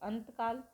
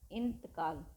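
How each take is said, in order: First: The word begins with the syllable 'an'. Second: The word begins with the syllable 'in'. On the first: This is the altered form people use through misunderstanding. "लेकिन हम क्या करते हैं अंतकाल" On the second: This is the original Persian form. "फारसी का शब्द है इंतकाल"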